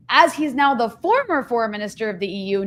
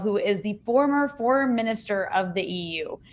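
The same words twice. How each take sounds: First: Former said with clear weight, the rest carried along; stress on former. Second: The word former gets the weight; stress on former. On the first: Host repeating the title to stress former, former stressed. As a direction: hit former, not the rest. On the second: Host stressing which post Borrell held, former stressed. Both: Shown as a demonstration. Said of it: "I emphasize the word former".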